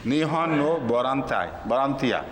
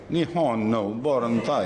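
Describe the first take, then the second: First: "نی ہون نو بوران تائی" kept level, without pitch glides; Japanese-style reading. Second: "نی ہون نو بورن تائی" read with Chinese-style rising and falling tones. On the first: Teacher shows students the flat Japanese way of saying "نی ہون نو بوران تائی". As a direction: say "نی ہون نو بوران تائی" straight and even, like Urdu. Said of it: "جاپانی پڑھیں گے تو یوں پڑھیں گے". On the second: Teacher shows students the Chinese way, with "نی ہون نو بورن تائی" in gliding tones. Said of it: "اگر چائنیز طرح پڑھیں گے تو یوں پڑھیں گے". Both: Shown as a demonstration.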